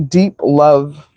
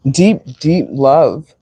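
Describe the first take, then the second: First: Said in the usual way. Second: Deep, deep love drawn out slowly, each deep leaned on; slow emphasis. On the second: Shown as a demonstration. Tarot reader to viewers, Deep, deep love stretched out slowly. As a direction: linger on every Deep, very slowly.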